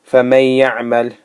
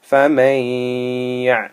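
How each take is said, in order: First: The n merges straight in without a nasal hum. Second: The n is held with a long nasal hum. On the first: The speaker calls it wrong. "instead of saying" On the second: The speaker calls it right. "you must pause here on the green letter... allow a sound to come through your mouth"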